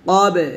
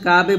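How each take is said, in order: First: The first consonant is a thick back q. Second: The first consonant is a thin front k. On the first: The speaker calls it right. "এটা হচ্ছে কফ মোটা করতে হবে" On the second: The speaker calls it wrong. "আমরা অনেক কাছে কাবে বলি কাফ এটা কিন্তু কাফ না"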